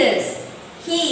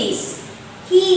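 Both takes have the same delivery.

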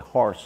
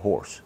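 First: The vowel sounds like 'ah', as in 'harse'. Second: The vowel sounds like 'or', as in 'horse'. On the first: It is how the locals say it. "a lot of people around here say horse" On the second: It is how people out of town say it. "instead of horse"

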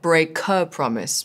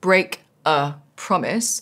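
First: The k links smoothly into the next word. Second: Each word is said separately, not linked. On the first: The speaker calls it right. "connected the k from the break to the of the next word" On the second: The speaker calls it wrong. "Instead of separating it into its three parts"

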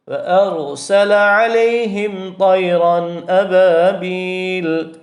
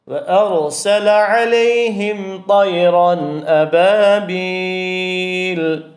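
First: The final long vowel is held only briefly. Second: The final long vowel is drawn out at length.

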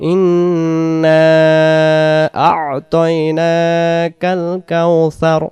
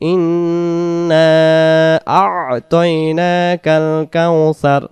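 First: The syllable before 'taina' is clearly kept. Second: The syllable before 'taina' is clearly kept.

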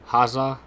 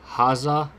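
Both takes have the same delivery.

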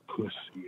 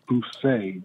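First: The word is said as 'pus-see', ending in 'see'. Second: The word is said as 'poo-say', ending in 'say'. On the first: It is the offensive word, not the name. The speaker calls it wrong. "not Pussy" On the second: It is the speaker's real last name. The speaker calls it right. "It's Poussey"

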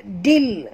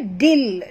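The two takes are said the same way.

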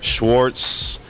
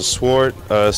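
First: The name begins with an SH sound. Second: The name begins with a plain S sound. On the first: The speaker calls it wrong. "Students are always messing up my name by saying Mr" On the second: The speaker calls it right. "my name is Mr"

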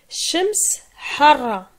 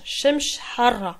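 First: The word for sun ends in an s sound. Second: The word for sun ends in a sh sound. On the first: This form is closer to standard Arabic. "certains disent shems, ça c'est vraiment lié à l'arabe" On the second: This form is another local variant. "d'autres prononcent shemsh"

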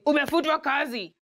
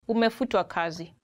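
First: It is said harshly and bluntly. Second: It is said gently and politely.

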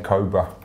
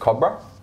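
First: The word is said the American way. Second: The word is said the Australian way. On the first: "In the US, they say Cobra" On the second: "We in Australia pronounce it Cobra"

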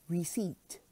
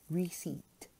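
The two takes are said the same way.

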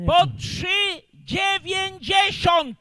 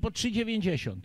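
First: It is said loudly, nearly shouted. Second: It is said at normal, quiet volume.

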